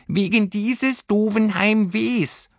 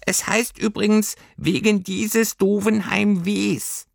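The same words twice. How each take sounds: First: Slow, "dieses" stressed, "Heimwehs" with final s; correct genitive. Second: High, slow little creature voice; a know-it-all little fur creature, correcting; prim little creature correcting grammar; Heimweh creature. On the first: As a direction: say "wegen dieses doofen Heimwehs" slowly, leaning on "dieses". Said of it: "Es muss heißen". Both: Acted.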